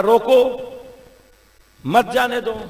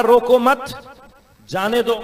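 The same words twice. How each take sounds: First: "روکو" alone and high, long pause, then "مت جانے دو" together; pause after روکو. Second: "روکو مت" as one rising phrase, pause, then "جانے دو"; pause after مت. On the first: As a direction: break right after "روکو", join "مت" to "جانے دو". ("روکو" کے بعد لمبا وقفہ، پھر "مت جانے دو") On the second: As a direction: keep "روکو مت" together, break before "جانے دو". ("روکو مت" کے بعد وقفہ، پھر "جانے دو") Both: Shown as a demonstration. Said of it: "آپ نے پوز جہاں پر لیا".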